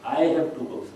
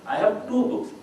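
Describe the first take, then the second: First: The stress falls on the word I. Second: The stress falls on the word two.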